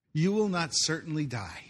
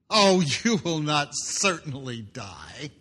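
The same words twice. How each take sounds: First: Said in the usual way. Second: Slow, drawn-out reassuring lie; Satan's smooth lie. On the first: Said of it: "this is phase two of the lie". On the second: Acted. Satan coaxing Eve that she will not die, slow and smooth. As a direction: coax her slowly into the lie. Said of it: "Satan's response".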